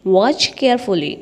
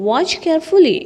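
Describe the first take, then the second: First: Slow teaching repeat. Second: Said in the usual way. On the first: Shown as a demonstration. Teacher drilling a phrase for students, slow and deliberate. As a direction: draw the phrase out for learners. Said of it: "teacher repeats phrase slowly". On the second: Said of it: "teacher repeats phrase".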